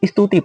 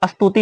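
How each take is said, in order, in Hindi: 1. s से पहले छोटी i ध्वनि आती है। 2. शब्द सीधे s ध्वनि से शुरू होता है।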